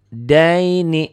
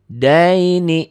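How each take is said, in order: Both takes have the same delivery.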